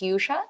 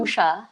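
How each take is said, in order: First: The name begins with a Y sound. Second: The name begins with a plain vowel sound. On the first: This is the version given to friends. "then I tell my friends it's Yusha" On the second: This is the original Indian pronunciation. "ang original pronunciation"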